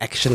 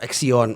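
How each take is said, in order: First: It is said like the word action. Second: It is said as ax-ee-on, three syllables. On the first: The speaker calls it right. "sebetulnya tuh namanya Action Club" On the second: The speaker calls it wrong. "banyak orang yang salah sebut"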